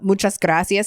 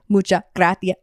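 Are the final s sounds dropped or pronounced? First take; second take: pronounced; dropped. First: The final s sounds are clearly pronounced. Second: The final s sounds are dropped. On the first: "instead of saying" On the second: "they just like drop straight up be dropping consonants"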